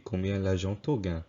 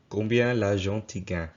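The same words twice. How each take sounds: First: The pronoun for 'you' sounds like 'to'. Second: The pronoun for 'you' sounds like 'ti'. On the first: "If I was to say it with to, it would be" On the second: "you could pronounce it like ti. Like in the example I gave earlier"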